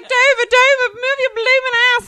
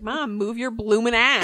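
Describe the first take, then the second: First: High, loud hammed-up holler; retold film-quote yell. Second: Said in the usual way. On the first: Child quoting My Fair Lady at mom, high loud yell. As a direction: holler it like cheering on a racehorse.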